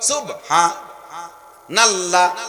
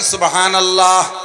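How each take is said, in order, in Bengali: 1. 'subha'-র পরে একটু থামা হয়। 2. এটা থামা ছাড়াই মসৃণভাবে বলা হয়। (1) "সুবহা কে থামি যায়" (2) "ক্লিয়ার জিকির বলেন"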